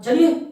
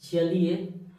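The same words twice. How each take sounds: First: The word is said sharply and harshly. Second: The word is said calmly and gently. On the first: "लोगों में थोड़ा लगेगा कि अरे क्या बोल रहा है" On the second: "आराम से कहा"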